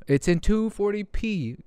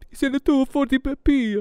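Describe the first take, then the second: First: Said in the usual way. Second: High-pitched goofy put-on voice; silly mocking voice. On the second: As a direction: repeat it in a high, silly mock voice.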